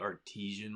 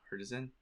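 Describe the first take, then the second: First: The word ends with a 'tee-zhun' sound. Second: The word ends with a 'ti-zan' sound. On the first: The speaker calls it wrong. "I say artesian market" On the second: The speaker calls it right. "if you read it, it's artisan"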